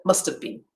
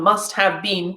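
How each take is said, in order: First: The words blend together with a weak schwa. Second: Each word is said separately with a full vowel. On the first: "to must have been" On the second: "it's going to change from must have been"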